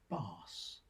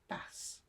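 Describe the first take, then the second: First: The vowel sounds like the one in farm. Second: The vowel sounds like the one in gas. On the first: "The first shares a sound with farm" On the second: "The second with gas"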